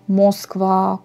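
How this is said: The first vowel sounds like 'o'. This is how people say it in Kostroma. "les gens préfèrent dire euh, O comme O"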